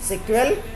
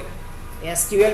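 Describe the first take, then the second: First: It is said as one word, sequel. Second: It is said as three separate letters. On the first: "सिक्वल भी इसको pronounce करते हैं" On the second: "इसको लोग एसक्यूएल भी बोलते हैं"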